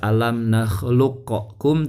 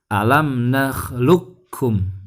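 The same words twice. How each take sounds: First: The Q is released with an echoing bounce. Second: The Q merges silently into the K. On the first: The speaker calls it wrong. "bukan dibaca" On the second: The speaker calls it right. "suara pantulannya hilang, dimasukkan ke huruf kaf"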